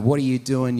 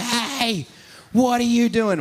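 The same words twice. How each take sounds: First: A touch louder, scolding the visitor; mild pretend telling-off; mock chastising. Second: High, loud mock confrontation; hammed-up angry yell, much higher; pretend yell. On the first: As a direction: lightly scold him. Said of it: "I start chastising him". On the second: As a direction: shout him down in a staged fight. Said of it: "we have this pretend fight".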